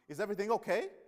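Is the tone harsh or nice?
harsh. It is said in a harsh, unkind tone.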